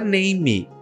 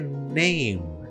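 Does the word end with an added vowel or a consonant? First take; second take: added vowel; consonant. First: The word ends with an extra vowel sound. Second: The word ends on the M sound. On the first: The speaker calls it wrong. "não é name" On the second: The speaker calls it right. "a palavra ela vai terminar no M"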